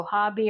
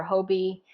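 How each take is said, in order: First: Hobby as HAH-bee; open-vowel pronunciation. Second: Hobie as HOH-bee; long O pronunciation. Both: Shown as a demonstration. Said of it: "what you'll probably end up hearing".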